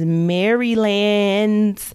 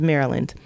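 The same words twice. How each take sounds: First: Maryland is said in a casual personal pronunciation. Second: Maryland is said in the standard pronunciation. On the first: "That's how I pronounce it" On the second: "but it's Maryland"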